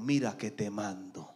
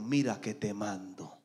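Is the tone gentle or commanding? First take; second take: commanding; commanding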